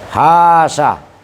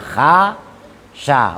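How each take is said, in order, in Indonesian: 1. Hanya vokal pertama yang panjang. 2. Kedua vokal pada kata itu panjang. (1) "membuang alif yang kedua... serta utuhnya alif yang pertama" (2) "setelah ha dan setelah sin ada alifnya, bunyinya kha sya"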